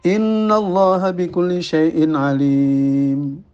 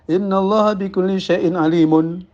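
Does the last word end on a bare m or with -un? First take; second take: bare m; -un ending. First: The last word ends on a bare m. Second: The last word ends with a -un ending. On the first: The speaker calls it right. "alimun itu ya di sukun" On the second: The speaker calls it wrong. "bukan ... tidak betul ya"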